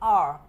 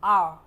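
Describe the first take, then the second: No difference in how they are said.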